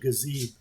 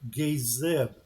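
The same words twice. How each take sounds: First: The name is said with a short A sound. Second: The name is said with a long A sound. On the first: "I've always called him Gazeb" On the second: "use the right pronunciation on that, it would be a long A and a soft I"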